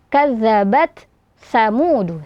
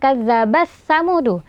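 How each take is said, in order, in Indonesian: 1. Bunyi t diucapkan dengan jelas sebelum s. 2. Bunyi t melebur ke dalam s yang mengikutinya. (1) "tapi baca kadzabat samudu" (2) "bukan kadzabas samudu"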